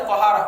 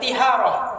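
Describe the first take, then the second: First: The first syllable has the vowel a. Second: The first syllable has the vowel i. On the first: It means purification. The speaker calls it right. "dibaca ta" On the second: It has a different meaning, not purification. The speaker calls it wrong. "Ti dibaca kasrah, salah"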